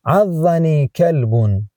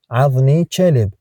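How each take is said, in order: First: Slow, careful Standard Arabic, عضني كلب with full endings; formal Arabic. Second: Dialect Arabic, عضني said ʕaðni and كلب said chelib; colloquial Arabic. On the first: Tutor reads the formal phrase to a learner, slow and careful. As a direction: read out عضني كلب slowly, كلب said kalbun. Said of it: "formal version before the dialect one". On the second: Tutor gives the everyday dialect phrase to a learner, relaxed. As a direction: say كلب as chelib, Gulf style. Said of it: "dialect version after the formal one". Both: Shown as a demonstration.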